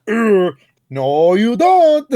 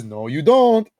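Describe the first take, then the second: First: High, loud, grunting ape-like outburst; big cartoon holler after a grunt; Donkey Kong. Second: Said in the usual way. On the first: Host acting out the changed game line, cartoon yell. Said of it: "And then D K says". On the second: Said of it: "they changed the line where he says".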